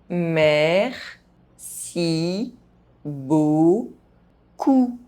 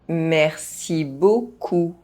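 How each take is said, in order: First: The phrase is spoken very slowly. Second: The phrase is spoken at normal pace. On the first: "very slowly" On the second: "at a normal pace"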